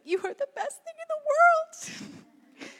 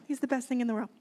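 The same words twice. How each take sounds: First: Put-on very high-pitched cooing to a baby; gushing mother. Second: Said in the usual way. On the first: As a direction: gush over your baby in a high, silly squeal. Mother gushing over her baby.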